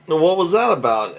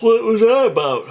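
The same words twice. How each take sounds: First: Said in the usual way. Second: High, hammed-up take on a young woman's question; squeaky mock girl voice. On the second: Retelling a show girl's line in a high put-on voice. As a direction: pitch it way up, then drop back to normal on the redo. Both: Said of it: "I'm sorry".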